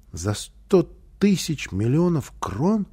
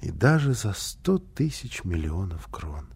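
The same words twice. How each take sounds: First: "за сто тысяч миллионов крон" slow, higher, rising questioningly; asking in wonder. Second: "И даже за сто тысяч миллионов крон" slow, softer, falling; reassuring answer. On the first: Boy asking mother about a hundred thousand millions, slow rising question. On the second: Mother answering her boy, soft slow confirmation. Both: A narrator's reading. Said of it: "спросил малыш".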